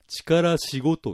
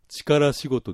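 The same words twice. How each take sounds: First: It has the Niigata dialect pitch accent. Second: It has the standard Japanese pitch accent. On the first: "これ新潟の人は力仕事って言います" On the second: "標準語だと力仕事ですけども"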